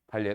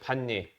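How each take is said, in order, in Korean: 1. 첫 번째 음절은 L 소리로 끝나요. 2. 첫 번째 음절은 N 소리로 끝나요. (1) "발예라고 하나요?" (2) "이 발음이 이게 아니죠"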